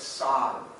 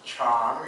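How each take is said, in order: First: The word begins with an s sound. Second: The word begins with a ch sound. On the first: This is the Lao form. "but it's san in, in Lao" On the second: This is the Thai form. "elephant is cham in Thai"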